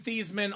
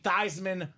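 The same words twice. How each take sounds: First: The name does not rhyme with Heisman. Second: The name rhymes with Heisman. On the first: This is the family's original pronunciation. "We know you've been Theismann all your life" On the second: The name was changed for a publicity slogan. "change the pronunciation of your name to Theismann so we can say Theismann for the Heisman"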